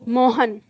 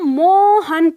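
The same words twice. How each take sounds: First: The vowels are said at normal, short length. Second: A vowel is stretched long, like a distant call. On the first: It is read as written, without the sign. The speaker calls it wrong. "पढ़ने वाला इसको क्या पढ़ेगा" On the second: The person being called is far away. The speaker calls it right. "हम चाहते हैं कि वो इसको मोहन पढ़े"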